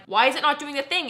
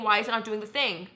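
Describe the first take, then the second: First: Frustrated. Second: Said in the usual way. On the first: Retold or imitated. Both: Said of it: "And I just am like".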